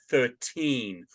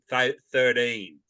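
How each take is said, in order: First: The t is said as a clear t sound. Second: The t is said as a d sound. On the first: The speaker calls it right. "at least we can pronounce our T's" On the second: The speaker calls it wrong. "my T's turn into D's"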